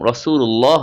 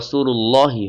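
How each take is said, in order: First: The word ends on 'lah' with no final vowel. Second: The word ends with an added final 'i' vowel. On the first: The reader stops after this word. "আমরা যে থেমেছি এজন্য রাসূলুল্লাহ হবে" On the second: The reader joins it to the next word. "মিলিয়ে পড়লে রাসূলুল্লাহি হবে"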